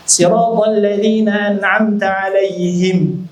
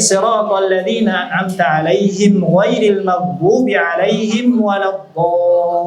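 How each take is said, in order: First: Slow chanted verse that comes to rest on 'alaihim; stop at alaihim. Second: Slow chanted verse that runs straight through without a stop; unbroken melodic Quran reading; joined recitation. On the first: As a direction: recite and stop after 'alaihim. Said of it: "pernah Nabi berhenti di situ". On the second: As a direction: recite siratal ladzina an'amta 'alaihim ghairil maghdubi in one breath. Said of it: "Bagusnya disambung". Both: Shown as a demonstration.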